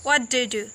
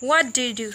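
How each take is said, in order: The two takes are said the same way.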